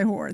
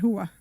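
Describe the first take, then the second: First: The word is said in a standard accent. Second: The word is said in a Sopranos-style accent. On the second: "they said hua"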